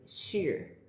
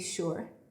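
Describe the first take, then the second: First: It is said with a Mandarin-like sound. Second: It is said with an ordinary English sound. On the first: "they'll say something like sure" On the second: "for us it might be there's like we'll say sure"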